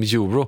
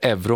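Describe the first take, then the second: First: The word is pronounced the other European way. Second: The word is pronounced the Swedish way. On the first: This is how the rest of Europe says it. "i övriga Europa säger de euro" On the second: This is how Swedes say it. "vi säger euro"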